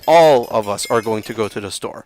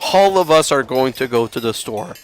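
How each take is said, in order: First: The first word starts with a plain vowel sound. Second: The first word starts with an added H sound. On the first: The speaker calls it right. "no, it's" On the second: The speaker calls it wrong. "some people will pronounce hall"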